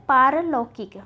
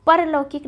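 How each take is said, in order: First: पारलौकिक starting long "pār"; पारलौकिक, open "paa" at the start; correct form shown. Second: परलौकिक starting short "par"; परलौकिक, quick "pa" at the start; wrong form shown. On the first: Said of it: "क्या होता है?". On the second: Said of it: "परलौकिक नहीं होता है". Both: Shown as a demonstration.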